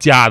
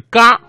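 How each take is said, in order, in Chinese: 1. 这个音节开头是 j 音。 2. 这个音节开头是 g 音。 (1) "现在是读家的" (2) "在中古时期呢，这个字的读音是嘎"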